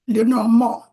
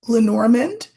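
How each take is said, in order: First: The name is said with French-style sounds. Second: The name is said with English-style sounds. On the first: "you can be French about it and pronounce it Lenormand" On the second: "or you can pronounce it Lenormand"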